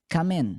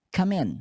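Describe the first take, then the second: Both takes have the same delivery.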